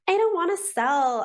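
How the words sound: It is said in a whiny tone.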